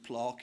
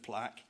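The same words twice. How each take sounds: First: It is said with a southern English vowel. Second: It is said with a non-southern English vowel. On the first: This is how people down south say it. "where they say ... plaque" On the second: This is how people locally say it. "instead of plaque"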